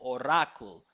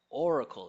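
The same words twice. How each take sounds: First: The stress is on the second syllable. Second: The stress is on the first syllable. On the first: The speaker calls it wrong. "It seems like they're stressing the second syllable" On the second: The speaker calls it right. "First syllable stress or"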